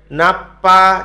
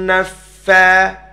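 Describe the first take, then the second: First: The middle consonant is a closed p sound. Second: The middle consonant is a breathy f sound. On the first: The speaker calls it wrong. "Jangan nanti bacanya napa jadi huruf pa" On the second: The speaker calls it right. "Bukan huruf pa tapi huruf fa"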